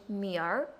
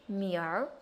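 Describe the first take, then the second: First: It ends with a curled r-sound. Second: It ends with a curled r-sound.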